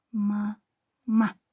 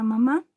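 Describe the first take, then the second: First: "Ma, ma" in two separate syllables; sílaba por sílaba. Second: Said in the usual way. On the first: Shown as a demonstration. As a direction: say "Ma", pause, then "ma". ("Ma, ma" separando las dos sílabas) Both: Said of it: "tiene dos sílabas".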